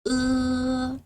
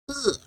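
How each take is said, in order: First: The syllable is said with the first tone. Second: The syllable is said with the fourth tone. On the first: "The first tone" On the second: "Fourth tone"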